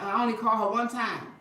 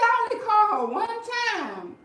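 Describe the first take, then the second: First: Chuckling through the quote; laughing. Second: High, loud mocking whine; mocking husband. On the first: Retold or imitated. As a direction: say it while laughing. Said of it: "My husband started stuttering". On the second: Quoting her husband's lame excuse, high mocking whine. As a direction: whine his excuse back at him, mocking. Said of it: "he said".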